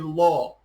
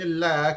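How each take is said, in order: First: The L is heavy and thick. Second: The L is light and thin. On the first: "kita tebalkan jadi la" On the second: "yang asalnya la"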